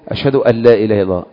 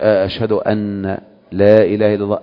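First: The n merges into the following l sound. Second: The n is pronounced clearly before the l. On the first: The speaker calls it right. "النون مع اللام بتجي كده، ده الطبيعة" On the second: The speaker calls it wrong. "بس هنا خالف طريقة نطق العرب"

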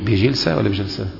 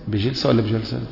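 Both takes have the same delivery.

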